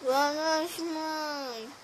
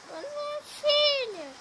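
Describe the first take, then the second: First: Said in the usual way. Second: Much higher, gentle mom reply; mother voice. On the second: Acted. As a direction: answer like the mom. Mother answers goodnight.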